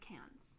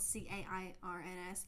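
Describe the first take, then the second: First: The name is said in its local pronunciation. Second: The name is said the way it is spelled. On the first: The speaker calls it right. "but it's pronounced Cairns" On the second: The speaker calls it wrong. "We want to say Cairns because it's spelled C-A-I-R-N-S"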